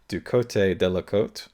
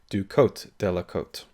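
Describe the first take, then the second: First: The first 'cote' ends with an 'ay' vowel. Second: The first 'cote' ends without an 'ay' vowel. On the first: The speaker calls it right. "the correct pronunciation of" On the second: The speaker calls it wrong. "that is wrong"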